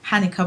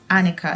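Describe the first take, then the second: First: The name begins with an audible H sound. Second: The name begins with a vowel, no H sound. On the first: The speaker calls it wrong. "that's not how you pronounce the name" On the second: The speaker calls it right. "I think it's pronounced Annika. So I think the H is um, silent"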